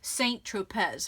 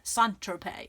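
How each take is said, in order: First: It is said with an American pronunciation. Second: It is said with a French pronunciation. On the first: "Americans, we would say" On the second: "but I think it's"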